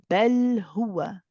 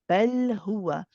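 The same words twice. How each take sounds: The two takes are said the same way.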